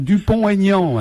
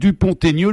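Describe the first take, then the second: First: No t sound links Dupont to Aignan. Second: A t sound links Dupont to Aignan. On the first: The speaker calls it wrong. "ils font pas la jonction, ils font Dupont-Aignan" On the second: The speaker calls it right. "normalement on doit faire la liaison"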